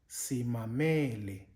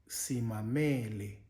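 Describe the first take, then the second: No difference in how they are said.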